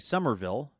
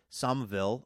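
First: Every syllable is said as it is spelled. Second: It is said in the shortened regional way. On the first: "which is the right way to pronounce it, I guess, based on the spelling" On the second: "the sort of regional thing"

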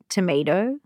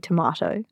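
First: It is said with a light American accent. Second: It is said in a non-American accent. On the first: It is said so the listener understands. "Which I'm saying in a lightly American accent" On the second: It is how the speaker would normally say it. "So I would say tomato"

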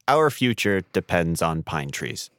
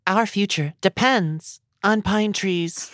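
First: It is said in a plain, normal voice. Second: It is said like a Disney princess.

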